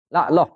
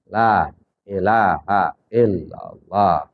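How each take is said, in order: First: It is said fast with sounds dropped. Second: It is said slowly with every sound complete. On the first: The speaker calls it wrong. "terlalu cepat kita zikirnya sampai ada huruf yang hilang" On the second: The speaker calls it right. "zikir harus tartil dengan kalimat sempurna"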